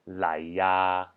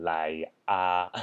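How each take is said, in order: First: "lai ya" joined with a y glide; linked ya. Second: "lai a" broken before a bare "a"; unlinked a. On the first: Teacher showing what sounds better, linked "lai ya". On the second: Teacher showing the worse version, disjointed "lai a". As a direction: separate "lai" and "a", no glide. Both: Shown as a demonstration. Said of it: "sounds better than".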